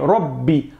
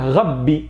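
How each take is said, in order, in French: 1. Le R est roulé, à la pointe de la langue, comme en espagnol. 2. Le R est guttural, dans la gorge, comme en français. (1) "Ra, c'est le R espagnol" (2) "des personnes qui vont dire Rabbi"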